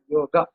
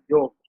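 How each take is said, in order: First: It is pronounced the Sanskrit way. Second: It is pronounced the Hindi way. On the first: "in Sanskrit, it is pronounced as" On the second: "in Hindi, you pronounce it as"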